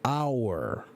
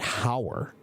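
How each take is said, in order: First: The word starts with a vowel, no h sound. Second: The word starts with a clear h sound. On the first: The speaker calls it right. "the pronunciation is hour" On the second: The speaker calls it wrong. "not hower"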